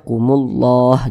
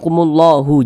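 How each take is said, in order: First: The word ends on a silent H. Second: The word ends with an added u vowel. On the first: The speaker calls it right. "Huruf H kita sukunkan" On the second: The speaker calls it wrong. "jangan dibaca kumullahu"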